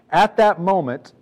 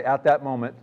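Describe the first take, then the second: First: Slow, louder, stressing "At that moment"; emphatic reading. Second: Said in the usual way. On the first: Shown as a demonstration. Preacher leading the congregation, slow emphatic phrase. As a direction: lean into "At that moment" slowly and loudly. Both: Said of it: "y'all say".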